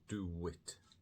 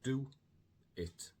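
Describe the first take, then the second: First: A w sound links the two words. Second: No extra sound is heard between the words.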